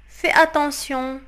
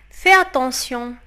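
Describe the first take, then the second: No difference in how they are said.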